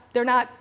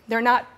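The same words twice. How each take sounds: The two takes are said the same way.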